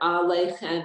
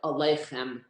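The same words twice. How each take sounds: First: The first vowel is said full. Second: The first vowel is said shortened. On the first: "Instead of" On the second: "It shortens the vowel. ... Israelis do it"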